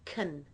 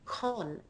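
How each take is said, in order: First: The syllable has a weak schwa vowel. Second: The syllable has a full 'o' vowel. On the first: The speaker calls it right. "I make that first vowel into a schwa" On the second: The speaker calls it wrong. "They use the vowel o"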